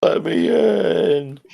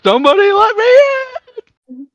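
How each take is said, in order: First: High, drawn-out plea; softened echo of a desperate cry; mock plaintive wail. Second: High, loud cry to be let in; hammed-up pleading shout; mock desperate yell. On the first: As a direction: stretch it into a slow pitiful whine. Imitates locked-out Louis again. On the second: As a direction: wail it like someone locked out. Imitates locked-out Louis yelling.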